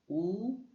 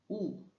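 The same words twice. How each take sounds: First: The pitch rises from mid to high. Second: The pitch falls sharply from high.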